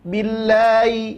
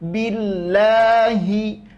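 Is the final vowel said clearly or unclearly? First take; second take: unclearly; clearly. First: The final vowel is said unclearly. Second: The final vowel is said clearly. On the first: The speaker calls it wrong. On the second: The speaker calls it right. "tapi jelaskan"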